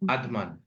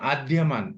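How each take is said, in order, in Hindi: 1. बीच का व्यंजन महाप्राण 'dh' है। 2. बीच का व्यंजन 'dy' संयुक्ताक्षर है। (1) "आधमान ऐसे" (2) "आप बोलते हैं आद्यमान, यह नहीं बोलना है"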